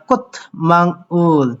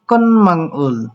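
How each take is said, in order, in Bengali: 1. m-এর আগে t ধ্বনি আসে। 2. m-এর আগে n ধ্বনি আসে। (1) "বলতে পারেন" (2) "কিন্তু এখানে বলবেন কন মাংউল"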